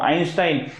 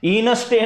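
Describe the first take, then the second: First: The name begins with an 'eye' sound. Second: The name begins with an 'in' sound. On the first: The speaker calls it right. "याचा उच्चार बघा, आईन्स्टाईन आहे" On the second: The speaker calls it wrong. "इनस्टेन वगैरे नाहीये"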